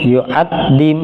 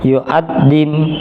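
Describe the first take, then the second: No difference in how they are said.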